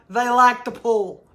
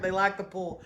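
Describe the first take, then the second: First: "like" slow and leaning in, louder; stress on like. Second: Said in the usual way. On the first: Real, not acted. Explaining a viewer's comment, leaning on "like". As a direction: draw out "like" with a knowing lean. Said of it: "wondering what she's talking about". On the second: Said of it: "Connie's like".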